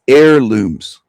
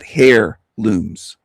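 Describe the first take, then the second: First: The word starts with a vowel, no h. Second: The word starts with an h, like hair. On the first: The speaker calls it right. "It's heirlooms. That's the way we pronounce it here" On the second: The speaker calls it wrong. "Hair, like a hairbrush or hair in a brush"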